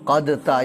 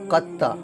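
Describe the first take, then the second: First: A d sound is read before the t. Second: The d is dropped and the t doubled. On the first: The speaker calls it wrong. "ऐसा नहीं पढ़ेंगे" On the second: The speaker calls it right. "यहाँ पर दाल को नहीं पढ़ेंगे"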